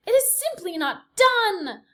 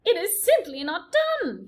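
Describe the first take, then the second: First: High, loud, slow disapproving aunt; prim Aunt Florence. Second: Prim Aunt Florence. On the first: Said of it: "distinctive voice of Despereaux's Aunt Florence". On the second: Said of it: "came Aunt Florence's voice". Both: A narrator's reading. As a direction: sniff it out like a scandalized aunt.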